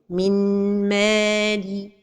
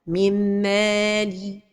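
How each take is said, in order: First: The n is pronounced clearly. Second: The n merges with no nasal hold. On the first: "une autre erreur, c'est de prononcer an-noun" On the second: "L'erreur et la prononciation sont données de temps pour la ghunna"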